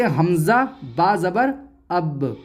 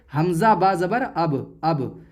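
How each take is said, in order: First: Spelled out with pauses, then अब with a jolt on the b; qalqalah bounce. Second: अब ending on a closed b, no bounce; no qalqalah. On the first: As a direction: bounce the final b of अब lightly. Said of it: "बल्कि". (अब के ब पर हल्का झटका) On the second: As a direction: cut अब off without any echo on the b. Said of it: "इसको ऐसे नहीं पढ़ेंगे". (अब बिना झटके के) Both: Shown as a demonstration.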